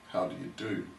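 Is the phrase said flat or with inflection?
flat. The phrase is said flat, without inflection. It is a fixed formal reply.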